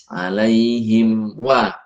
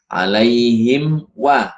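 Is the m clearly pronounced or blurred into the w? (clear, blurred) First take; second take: clear; clear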